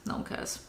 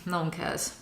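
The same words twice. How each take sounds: First: Barely audible, breath-only whisper; dismissive whisper. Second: Low, soft aside; dismissive mumble. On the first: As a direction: whisper it away under your breath. Repeats dismissal under the breath. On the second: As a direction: say it quietly to yourself. Trailing off, repeats dismissal. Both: Real, not acted.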